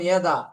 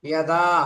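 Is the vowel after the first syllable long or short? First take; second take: short; long. First: The vowel after the first syllable is cut short. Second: The vowel after the first syllable is drawn out long. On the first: The speaker calls it wrong. "দ্বিতীয়তে টান দেইনি" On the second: The speaker calls it right. "প্রথমটাতে টান দিয়েছি"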